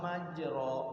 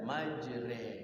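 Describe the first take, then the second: First: The vowel after r is an open a. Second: The vowel after r is an in-between e. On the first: "kalau di fathah"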